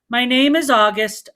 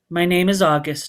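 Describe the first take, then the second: First: It is said more loudly. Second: It is mumbled quietly.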